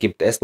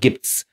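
First: "gibt es" as two separate words; full uncontracted form. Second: "gibt's" run into one syllable; contracted form. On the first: Teacher showing the form not used colloquially, "gibt es" in full. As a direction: keep the "es" whole in "gibt es". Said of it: "نقول gibt's". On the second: Teacher showing the colloquial short form, "gibt's" as one syllable. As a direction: drop the e, ending "gibt's" on a ts sound. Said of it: "وهلا نختصر". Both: Shown as a demonstration.

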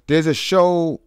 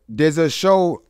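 The two takes are said the same way.

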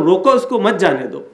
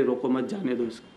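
First: روکو اس کو as one command, then مت جانے دو together; break before مت. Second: روکو مت grouped together, جانے دو اس کو falling away low and soft; break after مت. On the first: Preacher showing the stop-him reading, break before مت. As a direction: split before مت and join it to جانے دو. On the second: Preacher showing the let-him-go reading, break after مت. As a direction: join روکو to مت, then let جانے دو drop. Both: Shown as a demonstration. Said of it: "اس کو ٹکڑا کر سکتا ہے".

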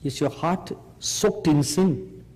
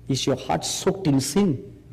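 Both takes have the same delivery.

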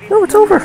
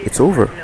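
First: Squealed very high and louder; a high squeak of despair. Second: Said in the usual way. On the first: Real, not acted. Gamer losing the match, squealing very high. Reacting to game loss.

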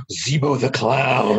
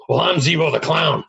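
First: Gasp, then slow hushed wonder; slow, drawn-out retold amazement; awestruck recognition. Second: Punchline in a put-on stranger's voice; playful mock announcement; imagined stranger announcing himself. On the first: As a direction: imitate a fan stunned by a memory. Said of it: "And he just said". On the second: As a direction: introduce yourself as the clown, raised a little. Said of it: "And they'll say".

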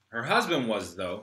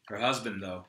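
First: "husband" falling, "was" then "though" rising; stress on was. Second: "husband" stressed, "though" tacked on. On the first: Player fixing a line, corrected stress. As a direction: land the past tense "was", "though" lifted. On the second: Player fixing a line, stress on "husband". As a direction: drop the voice on "Her husband", "though" trailing. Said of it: "Her husband, though, was". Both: Shown as a demonstration.

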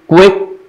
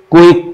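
First: क्विक as "ku-wek"; correct pronunciation. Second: क्विक as "ku-ik"; no W glide in क्विक, bare u-i; wrong pronunciation. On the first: Teacher alternating takes for students, W glide in क्विक. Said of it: "सही sound". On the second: Teacher alternating takes for students, glide-less "ku-ik" for क्विक. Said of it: "गलत sound". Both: Shown as a demonstration.

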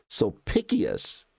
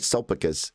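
First: Slow "Sulpicius" as sol-PICK-ee-us; corrected pronunciation. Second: "Sulpicus" in three quick syllables, stressed on SUL; incorrect pronunciation. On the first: Correcting own habit for viewers, careful "Sulpicius" said as sol-PICK-ee-us. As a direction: stretch "Sulpicius" into four syllables, stress on PICK. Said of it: "it's not Sulpicus, it's". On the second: Correcting own habit for viewers, incorrect "Sulpicus" said as SUL-pih-kus. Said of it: "I say it incorrectly". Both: Shown as a demonstration.

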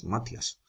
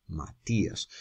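First: Matías as MA-tyas, said softly; soft first-syllable stress in Matías, i glided; wrong stress. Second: Matías as ma... TÍ-as, softly; correct stress on í. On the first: Teacher showing a wrong name, Matías softly as MA-tyas. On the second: Teacher correcting the name, Matías softly as ma-TÍ-as. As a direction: separate the stressed tí in Matías, low-key. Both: Shown as a demonstration. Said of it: "no llamas Matías".

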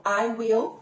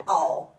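First: "I will" as two distinct words; full form. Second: "I'll" as a single syllable; contracted form. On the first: Teacher repeating the long form for learners, "I will" slow and separate. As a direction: pronounce "will" fully, slowly. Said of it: "vira I'll". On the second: Teacher repeating the short form for learners, "I'll" in one syllable. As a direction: merge "I'll" into one sound ending in l. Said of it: "I will vira I'll". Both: Shown as a demonstration.

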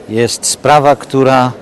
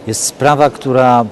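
No difference in how they are said.

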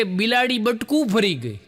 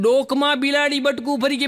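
First: Said in the usual way. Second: Higher, rising disbelieving repeat of ડોકમાં; incredulous echo. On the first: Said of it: "અરે, મને કે". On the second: Retold or imitated. Comedian echoing the man's odd excuse in disbelief. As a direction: echo it back in shock, stressing ડોકમાં. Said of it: "મેં કીધું".

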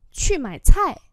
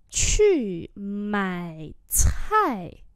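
First: Said in the usual way. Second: Separate, drawn-out syllables; slow teaching take; slow demonstration. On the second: Shown as a demonstration. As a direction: model each tone slowly. Teacher repeats phrase slowly.

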